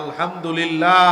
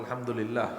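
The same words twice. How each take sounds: First: It is said even more loudly. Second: It is said at a normal, soft volume.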